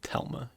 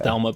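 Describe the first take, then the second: First: The name starts with a plain T sound. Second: The name starts with a TH sound. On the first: This is how Norwegians say the name. "they pronounce it Telma in Norwegian" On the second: This is the name as it is written. "the word is"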